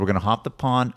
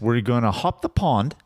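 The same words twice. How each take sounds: First: It is said in a natural American accent. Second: It is said in a put-on British accent.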